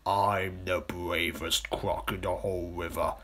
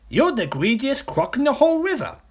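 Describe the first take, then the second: First: Slow, self-important crocodile voice; boastful crocodile. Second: High, loud little-croc outburst; accusing smaller crocodile. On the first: Big crocodile answering the accusation, slow and boastful. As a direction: answer slowly, puffed up with pride. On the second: Smaller crocodile telling off the big one, high and indignant. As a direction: hurl it as a high-pitched accusation. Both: Acted.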